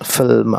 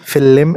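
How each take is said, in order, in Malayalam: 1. l നേരെ m-ലേക്ക് കടക്കുന്നു. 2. l ഉം m ഉം ഇടയിൽ ഒരു അധിക സ്വരാക്ഷരം വരുന്നു. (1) "എല്ല് കഴിഞ്ഞിട്ട് അവിടെ ഇ ഇല്ലല്ലോ" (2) "ഫില്ലിം എന്ന് പറയില്ല"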